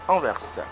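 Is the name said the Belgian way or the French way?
Belgian. The name is pronounced the Belgian way. "en Belgique on lit bien Anvers"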